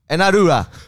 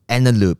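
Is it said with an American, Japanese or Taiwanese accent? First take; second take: Taiwanese; American. First: It is said with a Taiwanese accent. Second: It is said with an American accent.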